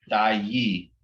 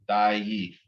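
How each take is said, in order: The two takes are said the same way.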